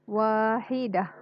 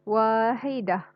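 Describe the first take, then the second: No difference in how they are said.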